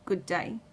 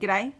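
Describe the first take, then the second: First: The greeting is said as two full words. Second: The greeting is squeezed into one short syllable cluster.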